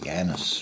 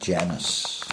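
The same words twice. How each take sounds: First: The word begins with a Y sound. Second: The word begins with a J sound.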